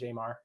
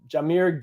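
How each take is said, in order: First: The name is pronounced like Jamar. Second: The name is pronounced like Jahmyr. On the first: The speaker calls it wrong. "not Jamar" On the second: The speaker calls it right. "Jahmyr, not Jamar"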